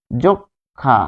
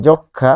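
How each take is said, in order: First: "যক্ষা" broken into jok... kha; split pronunciation. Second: Said in the usual way. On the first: Shown as a demonstration. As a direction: sound out "যক্ষা" slowly as jok, pause, kha. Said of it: "এই ক্ষীয় এর কারণে ক". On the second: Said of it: "পাচ্ছি".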